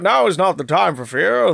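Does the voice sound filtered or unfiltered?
unfiltered. The voice is plain, without the filtered sound.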